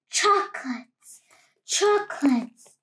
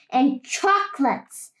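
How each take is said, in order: First: Cave echo. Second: Said in the usual way. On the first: Acted. The cave echoing back to the greedy rat, fading echo. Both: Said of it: "the voice from the cave replied".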